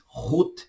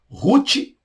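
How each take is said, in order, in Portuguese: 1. O nome tem a pronúncia hebraica. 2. O nome tem a pronúncia portuguesa. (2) "português"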